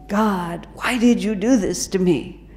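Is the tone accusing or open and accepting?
accusing. It sounds complaining and accusing. The speaker resents what happened. The speaker calls it wrong.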